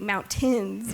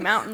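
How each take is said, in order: First: The middle T sound is clearly pronounced. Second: The middle T sound is dropped. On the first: It is the careful formal way. "you want to be really proper" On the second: It is the relaxed everyday way. "it's again the laziness... drop the T"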